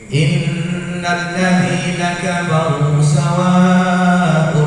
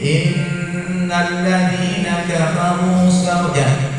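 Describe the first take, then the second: First: The vowel in 'sawa' is held long. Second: The vowel in 'sawa' is cut short. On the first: The speaker calls it right. "panjangnya tiga alif, harkatnya lima" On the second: The speaker calls it wrong. "tak boleh"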